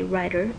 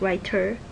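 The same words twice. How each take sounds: First: The middle consonant is a quick D-like flap. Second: The middle consonant is a clear, released T. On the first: The speaker calls it right. "you say writer. It's almost like D" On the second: The speaker calls it wrong. "Nobody says writer"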